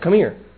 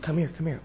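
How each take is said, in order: First: It is said in a harsh, stern tone. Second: It is said in a soft, gentle tone. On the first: A severe command, possibly a reprimand. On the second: A warm, friendly invitation.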